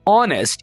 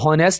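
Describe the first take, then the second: First: The word starts without an h sound. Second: The word starts with an h sound. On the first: The speaker calls it right. "यहां पर आपने H को silent रखना है" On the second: The speaker calls it wrong. "इसको हॉनेस्ट नहीं बोलना"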